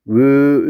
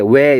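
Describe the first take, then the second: First: The vowel stays as one steady sound. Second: The vowel glides from one sound into another. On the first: The speaker calls it right. "입 모양이 변하면 안 돼요. 그래서 으 이렇게 발음을 해야 되는데" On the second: The speaker calls it wrong. "우린 보통 편하게 왜 이렇게 하잖아요. 근데 왜 이렇게 하면 변하잖아요"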